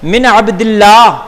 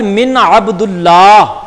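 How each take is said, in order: First: The vowel after Abd is an i sound. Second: The vowel after Abd is a u sound. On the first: The speaker calls it right. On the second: The speaker calls it wrong.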